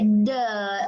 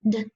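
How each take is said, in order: First: The d is followed by an uh vowel. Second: The d is short with no vowel after. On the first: The speaker calls it wrong. "Some of my friends like to say duh for D, but we got to cut off the uh" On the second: The speaker calls it right. "It's a very short sound"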